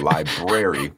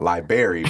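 First: The first r sound is pronounced. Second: The first r sound is dropped. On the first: The speaker calls it right. "but library" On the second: The speaker calls it wrong. "not library"

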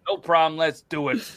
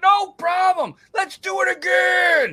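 First: It is said at a normal, calm volume. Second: It is yelled loudly with pumped-up energy.

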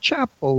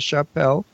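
First: The name is said like the English word chapel. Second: The name is said with a French-style pronunciation. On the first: The speaker calls it right. "like a church" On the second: The speaker calls it wrong. "French for a hat"

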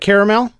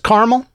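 First: It is said as three syllables. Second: It is said as two syllables, like carmel. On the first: The speaker calls it right. "Call it caramel, like it's supposed to be" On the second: The speaker calls it wrong. "She says caramel instead of caramel"

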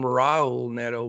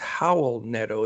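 First: The first name starts with an R sound. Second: The first name starts with an H sound. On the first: The speaker calls it wrong. "I always called him Raul Neto" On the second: The speaker calls it right. "the R's are pronounced like H's"

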